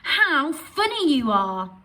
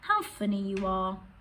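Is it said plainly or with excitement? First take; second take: excitement; plainly. First: It is said with excitement and surprise. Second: It is said plainly, without excitement.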